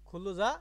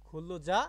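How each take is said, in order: No difference in how they are said.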